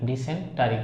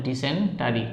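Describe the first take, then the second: Both takes have the same delivery.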